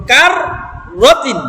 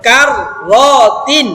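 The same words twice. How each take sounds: First: কার রতিন with the two ra sounds held together; joined correctly. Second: কার রতিন said as two separate broken words; split apart wrongly. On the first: Teacher showing students the right joined reading. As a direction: run কার into রতিন with the doubled r. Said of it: "এরকম আলাদা আলাদা করা যাবে না". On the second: Teacher demonstrating the wrong split to students. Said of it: "এখন যদি আপনি এইভাবে বলেন". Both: Shown as a demonstration.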